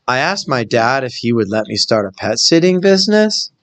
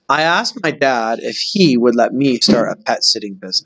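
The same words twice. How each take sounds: First: The voice rises at the end like a question. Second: The voice falls at the end like a statement. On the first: It sounds like a question is being asked. The speaker calls it wrong. "Listen to how I read it with the punctuation" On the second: It sounds like a plain statement. The speaker calls it right. "it's not a question, it's a statement"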